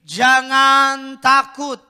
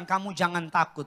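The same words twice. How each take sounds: First: "Jangan takut" drawn out slowly and loud, stress on "jangan". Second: Said in the usual way. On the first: Shown as a demonstration. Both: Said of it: "Bilang kiri kanan saudara".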